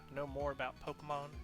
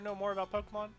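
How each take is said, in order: First: It is said in a Southern American accent. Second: It is said in a plain, unaccented voice. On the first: The speaker calls it right. "his southern accent" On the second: The speaker calls it wrong. "I forgot his southern accent again"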